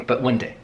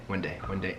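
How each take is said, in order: First: Said in the usual way. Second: Soft dreamy murmur, fading out; hushed wistful repeat. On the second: Retold or imitated. Dreaming of first class someday, a soft murmur. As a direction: say it quietly to yourself like a wish.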